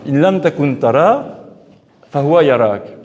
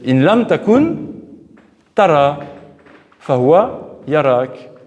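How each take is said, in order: First: The pause comes after the word tara. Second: The pause comes after the word takun. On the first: If you do not see him, he sees you. The speaker calls it wrong. "tout le monde a toujours mis euh, intuitivement la pause là" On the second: If you cease to be, you see, and he sees you. The speaker calls it right. "mais c'est pas comme ça. En fait"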